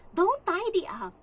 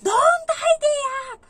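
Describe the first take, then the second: First: Put-on slow, firm order from the child, not yet a scream; mock a stern little boy's warning; loud, slow, bossy child's command. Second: Much higher, much louder, slow shrieking scream; all-out tantrum yell at the helper; child screaming. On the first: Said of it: "Sabi niya sa akin". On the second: Retold or imitated. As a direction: scream it like a furious kid on the third try. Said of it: "Sumigaw ngayon pangatlong beses".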